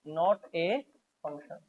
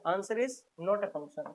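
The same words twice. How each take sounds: First: Said in the usual way. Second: Slow, spelled-out answer for the class; slow emphatic answer. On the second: Shown as a demonstration. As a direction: lay the answer out word by word, slowly.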